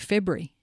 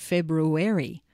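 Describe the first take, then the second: First: The first r sound is dropped. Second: The first r sound is clearly pronounced. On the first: "Most people say February" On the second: "the full February"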